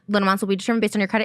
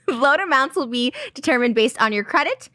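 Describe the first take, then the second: First: It is spoken very fast, rushed together. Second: It is spoken at a normal, unhurried pace.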